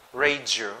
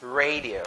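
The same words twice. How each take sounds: First: Radio as "RAY-juh"; wrong pronunciation. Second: Radio as "RAY-dee-oh"; full dee-oh ending on radio; correct pronunciation. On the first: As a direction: say "radio" with a J-like middle. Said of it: "it's not radio". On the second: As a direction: say "radio" slowly with a clear D. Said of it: "It's radio". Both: Shown as a demonstration.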